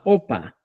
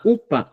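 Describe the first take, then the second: First: "opa" lower, starting on a round O; pronounced with O. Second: "upa" raised, starting on a bare U; pronounced with U. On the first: Teacher listing variants, "opa" with lower O. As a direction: open the first vowel of "opa" to O. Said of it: "lo que decían". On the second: Teacher listing variants, "upa" with high U. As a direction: lift "upa", clear U with no J. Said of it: "La expresión correcta es". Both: Shown as a demonstration.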